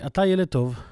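It is said as a firm exclamation, falling. It affirms that the person is good.

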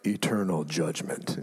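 It is said in a dramatic, ominous tone.

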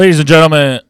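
It is said loudly, close to shouting. "That was too loud"

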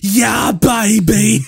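It is said in a Kano voice.

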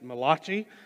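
Malachi is said in a regional US pronunciation.

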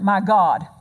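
The stress is on God.

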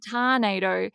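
The first vowel sounds like 'ar'. "It's a tarnado"

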